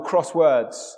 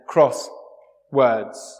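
First: It is said as one word without a pause. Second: There is a pause between cross and words.

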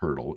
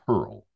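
First: A t sound comes before the final l. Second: No t sound comes before the final l. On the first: The speaker calls it wrong. "It's not turtle" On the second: The speaker calls it right. "it's turl"

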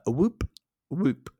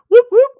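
First: It is said flatly with low energy. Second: It is said lively with high energy.

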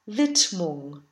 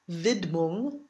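First: The d sound is voiceless, like a t. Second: The d sound is voiced. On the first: The speaker calls it right. "The D is not voiced" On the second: The speaker calls it wrong. "so it's not Widmung"

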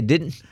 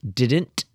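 First: The word is said casually with reduced sounds. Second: Every sound of the word is clearly pronounced. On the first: This is how the speaker's group says it. "We say didn't" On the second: This imitates how someone from up north says it. "She gets literally every letter in there"

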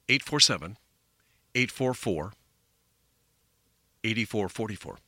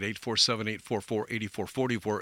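First: The number is said slowly. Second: The number is said at normal speed.

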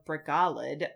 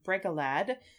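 First: The stress is on the middle syllable. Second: The stress is on the first syllable.

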